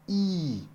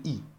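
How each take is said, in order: First: The vowel is held long. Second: The vowel is kept short. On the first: "C'est un peu plus long" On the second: "au lieu de I"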